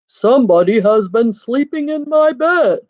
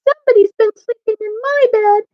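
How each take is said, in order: First: The voice sounds great and big. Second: The voice sounds wee and little. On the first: "in his great big voice" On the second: "in his wee little voice"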